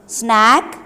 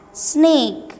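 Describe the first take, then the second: First: "Snack" with a short open a, rising; short vowel. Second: "snake" with a long ay sound, higher and falling; long vowel. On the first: Teacher contrasting vowels for pupils, short a in "Snack". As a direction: say "Snack" with a clipped short a sound. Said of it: "short vowel sound word snack". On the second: Teacher contrasting vowels for pupils, long ay in "snake". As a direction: stretch the ay in "snake". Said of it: "long vowel sound word is snake". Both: Shown as a demonstration.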